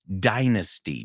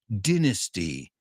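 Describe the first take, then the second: First: The word has a non-British pronunciation. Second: The word has a British pronunciation.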